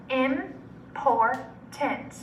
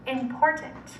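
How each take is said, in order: First: Important as im, por, tant with long pauses; chopped into syllables. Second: Said in the usual way. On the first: Shown as a demonstration. Teacher segmenting Important with students, chopped into syllables. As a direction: slowly chop Important into three syllables. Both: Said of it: "segment or chop it".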